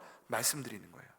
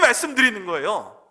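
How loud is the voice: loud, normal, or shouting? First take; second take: normal; loud. First: It is said at a normal, quiet volume. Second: It is said louder, with added force. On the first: This is ordinary speaking. "제가 지금 이렇게 말하는 건" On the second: This is speaking with emphasis. "좀 더 큰 소리로 소리 질러서"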